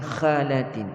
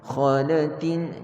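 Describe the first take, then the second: First: The first sound kha is thin and light. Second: The first sound kha is thick and heavy. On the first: The speaker calls it wrong. "jangan khalatin. Kha nipis ya" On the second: The speaker calls it right. "Kha tebal"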